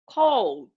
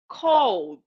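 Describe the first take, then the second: First: The ending is silent, giving one syllable. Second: The same.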